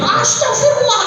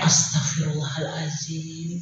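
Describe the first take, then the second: First: It is said loudly at a high pitch. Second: It is said slowly, softly and gently. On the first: The child does not listen to it. The speaker calls it wrong. "pakai nada tinggi" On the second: It actually gets through to the child. The speaker calls it right. "pelan dan dan halus"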